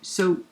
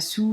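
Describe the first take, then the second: First: The word is said with an oh vowel. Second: The word is said with an oo vowel. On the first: The speaker calls it right. "on dit so" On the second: The speaker calls it wrong. "on dit pas sou"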